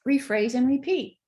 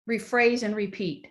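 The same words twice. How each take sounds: First: "Rephrase and repeat" said higher and brighter, savoring it; "Rephrase and repeat" lifted up, pleased; admiring repeat. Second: Said in the usual way. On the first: Shown as a demonstration. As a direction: relish the phrase "Rephrase and repeat". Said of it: "'Cause it was so effective". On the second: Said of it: "my child said".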